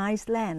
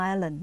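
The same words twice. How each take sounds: First: Island misread as Iceland, S sounded; mispronounced S. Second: Island with no S sound; silent S. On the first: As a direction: say island wrongly as ice-land with an audible S. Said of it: "ต้องอ่านว่า island ไม่ใช่ Iceland". (อ่าน island ผิดเป็นไอซ์แลนด์ ออกเสียงตัว S) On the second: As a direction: say island as eye-lund, S left silent. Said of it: "แต่เวลาอ่านต้องไม่ออกเสียงตัว S". (อ่าน island โดยไม่ออกเสียงตัว S) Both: Shown as a demonstration.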